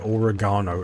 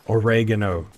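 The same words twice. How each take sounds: First: It is said the British way, stressing 'ga'. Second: It is said the American way, stressing 're'.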